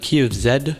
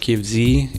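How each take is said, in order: First: The title is said in his usual pronunciation. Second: The title is said in a mock-American pronunciation.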